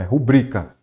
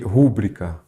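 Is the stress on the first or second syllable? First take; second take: second; first. First: The stress is on the second syllable. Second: The stress is on the first syllable. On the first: The speaker calls it right. "A forma correta é rubrica, então nós temos uma palavra paroxítona" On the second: The speaker calls it wrong. "nada de rubri, rúbrica"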